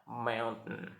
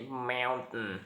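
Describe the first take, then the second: First: The T in the middle is glottalized. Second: The T in the middle is glottalized.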